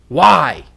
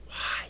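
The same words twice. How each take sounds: First: Loud, demanding question; loud, frustrated. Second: Hushed, very soft question; quiet. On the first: Teacher showing students attitude through intonation, loud and frustrated. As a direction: throw it out forcefully. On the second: Teacher showing students attitude through intonation, very quiet. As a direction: barely voice it. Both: Shown as a demonstration. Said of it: "How do you feel?".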